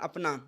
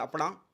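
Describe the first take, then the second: First: It is said in a standard Hindi accent. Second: It is said in a Haryanvi accent.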